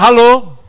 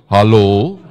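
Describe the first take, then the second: First: It is said in an ordinary voice. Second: It is said in a deep baritone voice.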